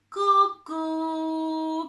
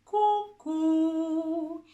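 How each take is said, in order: First: "cu" sung pulled back into the throat; wrong back placement. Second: "cu" sung forward toward the lips; forward vertical placement. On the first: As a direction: let the "cu" sink backwards. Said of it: "que no sea cu ... que se va para atrás". ("cu" colocado atrás, mal hecho) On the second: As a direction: aim the "cu" at the front. ("cu" hacia adelante y vertical) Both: Shown as a demonstration.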